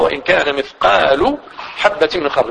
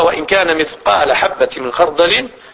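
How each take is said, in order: First: The word mithqal ends with a u vowel. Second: The word mithqal ends with an a vowel. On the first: The word is the subject of a complete verb. "إلا نافع رحمه الله فإنه قرأها" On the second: The word is the predicate of an incomplete verb. "مجموع القراء قروها"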